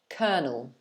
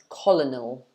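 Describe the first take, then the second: First: It sounds like cur-nel, with no middle L. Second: The middle L sound is pronounced clearly. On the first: The speaker calls it right. "the L in the middle is not pronounced at all" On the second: The speaker calls it wrong. "a lot of people might think it's pronounced colonel"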